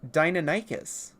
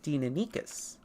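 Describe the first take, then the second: First: It is pronounced like Americanized dinosaur names. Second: It is pronounced by the original Greek rules. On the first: "the way that you would normally in Americanized dinosaur names" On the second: "pronouncing it correctly would be Deinonychus"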